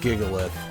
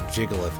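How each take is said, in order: First: The name begins with a hard G sound. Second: The name begins with a J sound.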